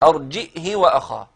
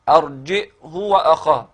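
First: The h takes a short i vowel. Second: The h takes a short u vowel. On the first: "هكذا يقرأها كما نطقتها" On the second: "بضم بدون صلة"

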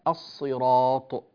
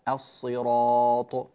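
No difference in how they are said.

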